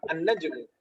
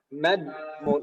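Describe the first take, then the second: First: The j sound ends with a clear echoing bounce. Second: The j sound ends flat without any bounce. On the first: The speaker calls it right. "lebih bagus dipantulkan" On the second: The speaker calls it wrong. "kalau nggak dipantulkan gimana"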